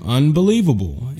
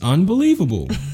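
First: The word sounds frustrated and let down. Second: The word sounds delighted and excited. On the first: Something bad has happened. "something bad happens to you" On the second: Something good has happened. "If you go through something really good"

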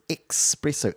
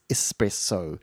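First: The word starts with an 'ex' sound. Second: The word starts with an 'es' sound. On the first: "most people thought it was espresso, E-X-P" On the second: "rather than the E-S-S, espresso"

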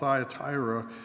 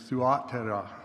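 First: The first syllable sounds like 'thigh'. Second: The first syllable sounds like 'thoo'. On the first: This is how the name is commonly said. "the name of this city is often called Thyatira" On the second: This is how the name was originally said. "the actual pronunciation of its name is Thuatira"

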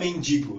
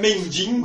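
First: The second syllable is a plain 'di'. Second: The second syllable has an added nasal 'ding'. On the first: The speaker calls it right. "Não saía mendigo" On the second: The speaker calls it wrong. "saía mendingo"

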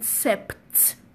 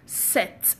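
First: The word is said with a p sound. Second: The word is said without a p sound. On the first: The speaker calls it wrong. "Many of you may see it and call it sept because there is P" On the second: The speaker calls it right. "it is pronounced set"

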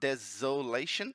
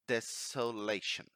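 First: The consonant after the first syllable sounds like z. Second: The consonant after the first syllable sounds like s. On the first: The speaker calls it wrong. "It's not desolation. It's not like a Z sound" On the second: The speaker calls it right. "It's desolation"

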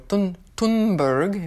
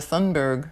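First: The name is pronounced in a Swedish way. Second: The name is pronounced in an English way. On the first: The speaker calls it right. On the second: The speaker calls it wrong.

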